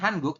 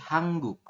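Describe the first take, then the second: First: The middle consonant is plain and short. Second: The middle consonant is tense and lengthened. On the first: The speaker calls it wrong. "bukan Hanguk" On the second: The speaker calls it right. "tapi Hangguk"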